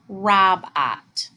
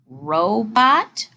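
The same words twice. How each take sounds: First: The first vowel is a short o. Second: The first vowel is a long o. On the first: The speaker calls it wrong. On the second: The speaker calls it right.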